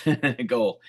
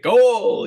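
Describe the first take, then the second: First: Said in the usual way. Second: Goal! shouted high and loud like a stadium announcer; celebratory goal shout, much higher and louder; soccer goal call. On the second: Shown as a demonstration. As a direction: belt out Goal! like a commentator celebrating a score. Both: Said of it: "You gotta put a little emphasis on that goal".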